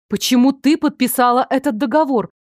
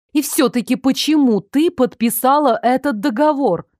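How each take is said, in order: First: Brisk, slightly raised insistent question; persistent questioning. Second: Unrelenting questioning. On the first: Mother questions daughter about the contract, mildly insistent. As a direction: press for an answer without dragging it out. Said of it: "не унималась мать". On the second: Mother returns to the contract, deliberately insistent. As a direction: ask it deliberately, giving each word room. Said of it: "Матушка явно не желала униматься". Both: A narrator's reading.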